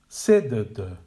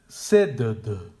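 First: The first syllable is stressed, the others reduced. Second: The first syllable is stressed, the others reduced.

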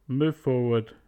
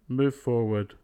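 The two takes are said the same way.

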